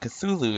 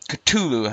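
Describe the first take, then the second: First: The name is said with smooth, flowing sounds. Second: The name is said with sharp, clipped sounds. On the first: "is kind of a more, well, it is a more, you know, um, flowing name" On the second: "has a much sharper"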